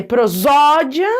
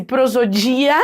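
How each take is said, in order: First: Prosódia with a strong, open ZÓ; stress on ZÓ. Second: Prosodia with the stress moved onto DI, pro-zo-DI-a. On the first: Teacher showing the correct reading, prosódia stressed firmly on ZÓ. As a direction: lean hard on the middle syllable ZÓ in prosódia. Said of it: "deixando bem forte o zó". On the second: Teacher supposing a misreading, prosodia stressed on DI. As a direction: hit DI in prosodia. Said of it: "deixando mais forte o dia ali". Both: Shown as a demonstration.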